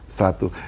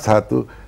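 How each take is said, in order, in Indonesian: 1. Kata "satu" diucapkan dengan volume lebih pelan. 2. Kata "satu" diucapkan dengan volume lebih keras.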